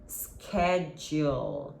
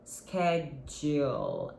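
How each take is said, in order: First: It is said with an American pronunciation. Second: It is said with an American pronunciation.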